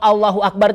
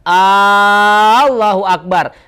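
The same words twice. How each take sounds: First: The opening vowel of Allahu is kept short. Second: The opening vowel of Allahu is drawn out long. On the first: It is a statement that God is great. The speaker calls it right. "itu kan pengakuan" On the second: It becomes a question: is God great? The speaker calls it wrong. "hamzahnya panjang, a itu jadi kalimat pertanyaan"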